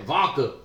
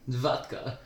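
First: The D sound in the middle is dropped. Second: The D sound in the middle is clearly heard. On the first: The speaker calls it wrong. "he doesn't ever pronounce the D" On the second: The speaker calls it right. "There you go"

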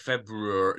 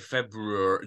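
First: The R after the B is clearly pronounced. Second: The same.

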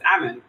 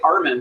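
First: No R sound follows the first vowel. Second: An R sound follows the first vowel. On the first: The speaker calls it right. "but it's Amann" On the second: The speaker calls it wrong. "I always say Armin"

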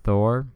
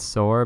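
First: The word starts with a lisped th sound. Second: The word starts with a plain s sound. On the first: "Thor with a lisp" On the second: "it's sore"

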